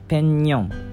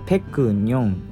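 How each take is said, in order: First: The first syllable ends with an ng sound. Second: The first syllable ends with a k sound. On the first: This is how it is actually pronounced. The speaker calls it right. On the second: This is how it looks when read letter by letter. The speaker calls it wrong.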